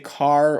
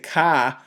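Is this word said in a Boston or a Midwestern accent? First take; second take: Midwestern; Boston. First: It is said in a general Midwestern accent. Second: It is said in an imitated Boston accent. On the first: "We might say car" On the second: "that's my impersonation of a Boston accent"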